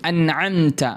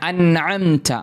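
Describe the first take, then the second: The two takes are said the same way.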